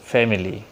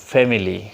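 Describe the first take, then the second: First: It is pronounced with a Bengali accent. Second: It is pronounced with a Bengali accent.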